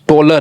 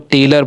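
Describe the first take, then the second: First: The last syllable has a full 'o' vowel. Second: The last syllable has a reduced 'uh' vowel. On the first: The speaker calls it wrong. "ऐसा लगा कि टोलर हो रहा है" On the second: The speaker calls it right. "तो टेलर बन गया, आ का उच्चारण हो रहा है"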